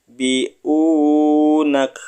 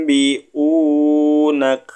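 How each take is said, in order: The two takes are said the same way.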